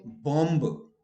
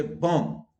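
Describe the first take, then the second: First: Bomb with the final B sounded, bomb-b; wrong sounded B. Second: Bomb as bom, B silent. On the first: Teacher mocking a common error: bomb with B sounded. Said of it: "you don't say bomb". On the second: Teacher giving the correct form: bomb, silent B. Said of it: "you say bomb". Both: Shown as a demonstration.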